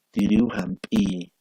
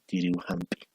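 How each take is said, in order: First: Slow, louder tiriu hampi with its vowels held long; lengthened vowel. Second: Said in the usual way. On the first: Shown as a demonstration. (tiriu hampi lento y más fuerte, con vocales alargadas) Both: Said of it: "el alargamiento vocálico lo diferencia".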